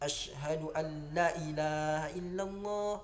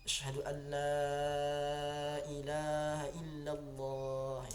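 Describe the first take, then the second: First: The vowel in la is short. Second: The vowel in la is long. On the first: The speaker calls it wrong. "Contoh yang salah" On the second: The speaker calls it right. "La itu panjang ya. ... itu yang benar ya"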